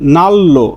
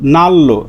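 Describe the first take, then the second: No difference in how they are said.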